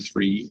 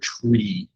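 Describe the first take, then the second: First: The word begins with a th sound. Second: The word begins with a t sound. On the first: "a lot of times we want to say three" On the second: "the proper pronunciation, phonetic pronunciation, is tree"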